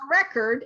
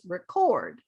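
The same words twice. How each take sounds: First: The stress is on the first syllable. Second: The stress is on the second syllable. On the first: It is used as a noun. "the noun record" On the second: It is used as a verb. "the verb is record"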